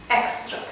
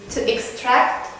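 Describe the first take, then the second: First: Extract stressed on the first syllable, EX-tract; noun stress. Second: Extract stressed on the second syllable, ex-TRACT; verb stress. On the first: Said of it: "and then we have affix". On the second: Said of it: "the second syllable is stressed". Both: Shown as a demonstration.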